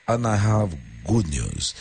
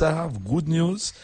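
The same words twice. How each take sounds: First: Said in the usual way. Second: Good news said high and slow; high voice change. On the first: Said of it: "check out the voice change on the last one". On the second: Shown as a demonstration. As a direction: lift the first good news way up. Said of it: "check out the voice change".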